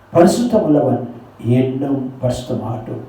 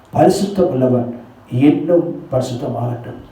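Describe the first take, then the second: The two takes are said the same way.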